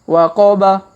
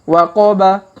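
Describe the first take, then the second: The two takes are said the same way.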